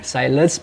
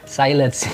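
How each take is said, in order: First: It is read like the English word silence. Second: The same.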